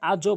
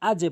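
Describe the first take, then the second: First: The final bounce is pushed upward. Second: The final bounce is pushed downward. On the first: The speaker calls it wrong. "আজও বলা যাবে না" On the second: The speaker calls it right. "জিম দাল হচ্ছে নিচের দিকে ধাক্কা"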